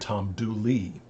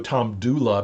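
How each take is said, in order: First: The name ends in an 'ee' sound. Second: The name ends in an 'uh' sound. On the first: This is the local regional form of the name. "people often pronounce the A sound as E" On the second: This is the original form of the name. "the real name is uh, Tom Dula"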